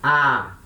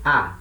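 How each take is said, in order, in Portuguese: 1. A vogal é prolongada. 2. A vogal dura só um instante. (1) "Se ela for longa, vai ter o som de A" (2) "Se ela for breve, vai ter o som de A"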